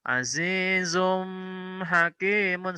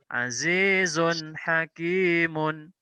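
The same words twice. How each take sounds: First: The n sound is held longer, not crisp. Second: The n sound is short, clear and direct. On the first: The speaker calls it wrong. "Atau azizun hakimun, salah" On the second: The speaker calls it right. "Yang betul azizun hakimun"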